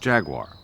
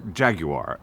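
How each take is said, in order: First: It is said with an American pronunciation. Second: It is said with a British pronunciation.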